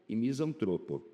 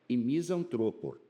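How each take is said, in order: No difference in how they are said.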